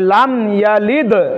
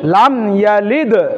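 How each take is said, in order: First: The final d is released with an echoing bounce. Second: The final d is released with an echoing bounce.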